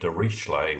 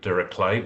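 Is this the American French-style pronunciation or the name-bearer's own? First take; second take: American French-style; own. First: The name is said in a French-sounding way. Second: The name is said the way its bearer said it. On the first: This is the usual pronunciation in America. "in America it's usually Dirichlet. We pretend it's French" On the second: This is how the man himself said his name. "Mister Dirichlet does pronounce it Dirichlet"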